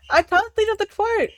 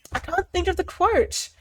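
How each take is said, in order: First: Higher, whiny repeat; mock whine. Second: Said in the usual way. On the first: Real, not acted. Forgetting the movie quote, higher mock whine.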